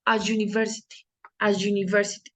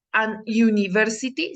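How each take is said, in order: First: A university with you sound after a; correct example. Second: An university said as the mistaken version; wrong example. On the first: Teacher giving students the correct form, plain model. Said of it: "sino digo". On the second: Teacher showing students the wrong form, mild contrast. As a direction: give an university as the error. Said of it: "Yo no digo". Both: Shown as a demonstration.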